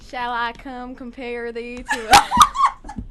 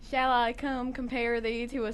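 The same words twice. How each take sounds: First: It is read in a Southern American accent. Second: It is read in a neutral accent. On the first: "read it in Southern accent" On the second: "You can read it normal now"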